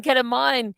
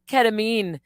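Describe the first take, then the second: First: Ketamine with a final "mine", like wine; ketamine pronounced KET-a-mine. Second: Ketamine with a final "meen", like bean; ketamine pronounced KET-a-meen. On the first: Mocking two ways of saying ketamine, this one ending "mine". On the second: Mocking two ways of saying ketamine, this one ending "meen". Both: Shown as a demonstration. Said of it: "tomato, tomato".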